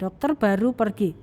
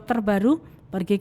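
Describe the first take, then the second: First: There is a pause after the word dokter. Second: There is a pause after the word baru. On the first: The doctor has just left. "Maksudnya sudah lain" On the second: A newly arrived doctor goes somewhere. "Oh berarti ini maksudnya dokter yang baru pergi ke ruang guru"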